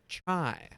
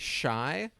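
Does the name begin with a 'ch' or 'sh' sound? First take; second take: ch; sh. First: The name begins with a sharp 'ch' sound. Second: The name begins with a soft 'sh' sound. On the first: The speaker calls it right. "it's more so like chai, like the tea" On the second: The speaker calls it wrong. "I've heard one person say shy, but then I was told that's wrong"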